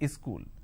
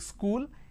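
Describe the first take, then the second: First: An extra vowel comes before the s sound. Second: The word starts directly with the s sound. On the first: The speaker calls it wrong. "they add a E in front" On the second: The speaker calls it right. "So instead of saying school"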